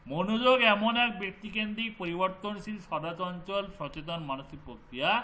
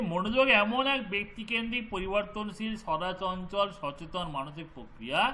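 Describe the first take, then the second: The two takes are said the same way.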